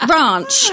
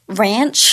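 First: It is said in a British accent. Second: It is said in an American accent.

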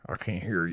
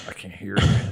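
First: It is said in a Texas accent. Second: It is said in a plain accent.

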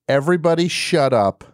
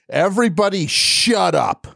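First: It is said mildly, without much force. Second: It is said forcefully, with more energy.

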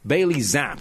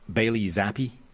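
First: The surname ends sharply on the 'p' sound. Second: The surname ends with an 'ee' vowel. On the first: The speaker calls it right. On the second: The speaker calls it wrong.

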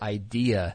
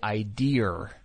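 First: The word ends in a vowel with no r. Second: The word ends with an added r sound. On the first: The speaker calls it right. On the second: The speaker calls it wrong.

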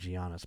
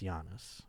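First: The name is said the anglicized way. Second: The name is said the Greek way. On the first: The speaker calls it wrong. "I said Giannis" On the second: The speaker calls it right. "but it's Giannis. He's Greek like I am"

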